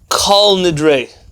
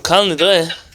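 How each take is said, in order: First: The first word has an 'o' vowel. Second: The first word has an 'a' vowel. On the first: "it's a oh sound. Yes? Like kol nidre. That's how they would say" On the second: "the tefillah is in uh, Aramaic. So kal nidre"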